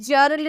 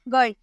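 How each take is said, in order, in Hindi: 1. यह शब्द j sound से शुरू होता है। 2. यह शब्द हार्ड g साउंड से शुरू होता है।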